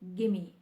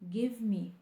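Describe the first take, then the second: First: The words are blended into one word. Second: Both words are said fully and separately. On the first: The speaker calls it right. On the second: The speaker calls it wrong.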